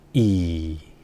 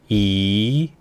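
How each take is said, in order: First: The pitch starts low and dips lower. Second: The pitch rises from mid to high. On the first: "낮은 음에서 낮은 음으로 내려갑니다" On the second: "이성은 올려주세요"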